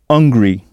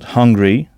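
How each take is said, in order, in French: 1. Le mot commence directement par un son de voyelle. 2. Le mot commence par un son h soufflé. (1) "ne pas prononcer le H de hungry et du coup on entend hungry" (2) "Avez-vous bien prononcé le H aspiré de hungry?"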